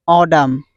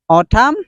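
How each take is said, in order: First: "autumn" as AW-dum, falling; American pronunciation. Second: "Autumn" with a crisp T, rising end; basic pronunciation. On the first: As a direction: soften the T in "autumn" to a D. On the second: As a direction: say "Autumn" as AW-tum, lifting it. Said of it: "is the basic pronunciation". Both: Shown as a demonstration.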